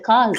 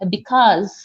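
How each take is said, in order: First: The first syllable is dropped, leaving one syllable. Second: Both syllables of the word are pronounced. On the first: "you just say cause" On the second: "Instead of saying because"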